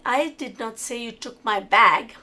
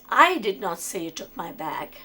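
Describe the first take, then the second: First: The stress falls on the word bag. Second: The stress falls on the word I. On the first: Something else may have been taken. "but you may have taken something else" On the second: Someone else said it. "means that I didn't say it, someone else said it"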